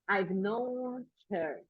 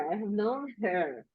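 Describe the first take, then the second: First: "I have" is shortened to one syllable. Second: "I have" is said as two full words. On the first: "I can say I've" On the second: "Instead of saying I have known"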